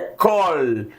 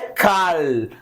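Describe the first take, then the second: First: The vowel is pronounced as an 'oh' sound. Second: The vowel is pronounced as an 'ah' sound. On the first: The speaker calls it right. "aqui é Kol" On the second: The speaker calls it wrong. "aqui não é Kal"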